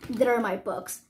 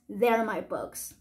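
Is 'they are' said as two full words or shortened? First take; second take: shortened; shortened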